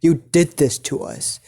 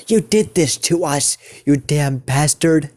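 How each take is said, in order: First: Said in the usual way. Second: Mild angry yell, pitched higher. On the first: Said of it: "no, he says this in a more higher pitched voice". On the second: Acted. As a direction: raise the pitch in mock anger. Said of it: "he says this in a more higher pitched voice".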